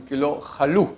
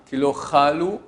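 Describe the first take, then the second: First: "chalou" with the accent on final "lou"; end-stressed "chalou"; stress on last syllable. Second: "chalou" accented on its first syllable; wrong stress, first syllable. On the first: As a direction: hold back "cha", land on "lou" in "chalou". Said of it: "Sur la fin du mot". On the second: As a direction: stretch and stress the "cha" in "chalou". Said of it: "Là, il n'est pas en début". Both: Shown as a demonstration.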